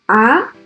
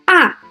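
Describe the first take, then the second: First: The pitch rises from low to high. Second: The pitch falls sharply from high to low. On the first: "The second tone is a rising tone" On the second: "The fourth tone is a high falling tone"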